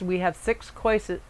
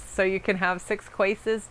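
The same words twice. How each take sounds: First: "courses" said as KOR-siz, the word slip; slip of the tongue. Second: "courses" here said as CHOY-siz, the intended "choices"; corrected word. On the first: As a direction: say "courses" where "choices" was meant. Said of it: "I was gonna say six courses and choices". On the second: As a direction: fix the slip, say "courses" as choices. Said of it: "So it came out courses". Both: Shown as a demonstration.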